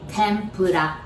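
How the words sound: It is said with a Japanese accent. "In Japanese, we said tempura"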